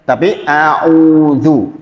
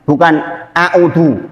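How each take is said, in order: First: The first vowel is held for two beats. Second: The first vowel is clipped short. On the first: The speaker calls it right. "au itu dua, dua harokat" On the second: The speaker calls it wrong.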